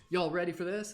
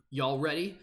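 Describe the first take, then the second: First: Higher, hyped-up call to the crowd; hype announcer voice. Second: Said in the usual way. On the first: Acted. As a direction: pump up the audience. Hyping the chat before game.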